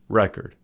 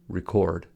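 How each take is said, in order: First: The stress is on the first syllable. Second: The stress is on the second syllable. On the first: It is used as a noun. "when record is used as a noun, the stress is on the first syllable" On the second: It is used as a verb. "when record is used as a verb, the stress is on the second syllable"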